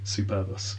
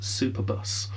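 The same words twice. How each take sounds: First: It is said as one Latin-sounding word. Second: It is said like the English words super bus. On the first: The speaker calls it right. "Which obviously should be Superbus" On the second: The speaker calls it wrong. "I know I'm mispronouncing it because I prefer to mispronounce it"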